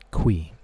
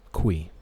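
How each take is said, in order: First: The name sounds like 'kwee'. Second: The same.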